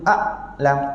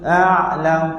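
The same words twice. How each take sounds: First: The ain is cut off with a broken voice. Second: The ain is made shallow, near the surface. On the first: "saya baca ain dengan suara terputus" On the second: "ain saya kurang dalam... dekat permukaan saja"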